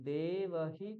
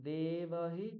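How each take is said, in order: The two takes are said the same way.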